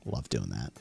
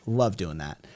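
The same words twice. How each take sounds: First: Low, quiet, dry sarcasm; deep sarcastic mutter. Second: Said in the usual way. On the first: Shown as a demonstration. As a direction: drop way down low and soft for love doing that.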